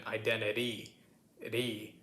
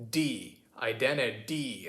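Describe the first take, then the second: First: Identity with a light, quick tap in the last syllable; soft tap, not a full D, in 'identity'; tapped T. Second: Identity ending in a full, hard D; wrong proper D. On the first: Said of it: "It's not quite like that. It's more of". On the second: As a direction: say 'identity' with a clear D before the last vowel. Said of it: "It's not quite like that". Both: Shown as a demonstration.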